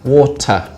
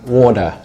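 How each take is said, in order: First: The middle consonant is a hard T. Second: The middle consonant is a soft D. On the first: "So we have a hard T" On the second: "an American would change that to a D slightly, a soft D"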